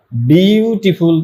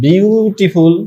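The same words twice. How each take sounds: First: বিউটিফুল very slow, stretching বিউ before টি and ফুল; syllable-by-syllable. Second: Said in the usual way. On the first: Shown as a demonstration. Teacher showing it has more than one syllable, syllable-by-syllable. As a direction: draw out বিউটিফুল so every syllable can be counted. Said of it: "একের অধিক হচ্ছে". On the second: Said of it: "এটাকে উচ্চারণ করো".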